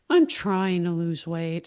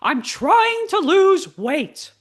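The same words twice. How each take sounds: First: It is said in a sad, downcast voice. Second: It is said in a confident, positive voice.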